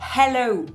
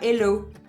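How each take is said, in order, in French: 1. Le son H initial est bien prononcé. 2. Le son H initial est complètement omis. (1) "The H needs to be" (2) "et pas hello"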